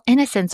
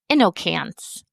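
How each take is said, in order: First: The C is said with a soft s sound. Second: The C is said with a hard k sound. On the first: The speaker calls it right. "because of the soft C sound" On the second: The speaker calls it wrong. "If we used A N C E, we would pronounce that word"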